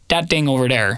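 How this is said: It is said with d sounds, Wisconsin style.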